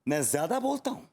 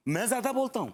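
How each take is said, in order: First: Controlled, incredulous echo; affronted echo. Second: Higher, indignant outburst. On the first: Husband echoing wife's accusation, affronted but controlled. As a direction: hold back while questioning the accusation. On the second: Husband throwing wife's accusation back, indignant. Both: Acted.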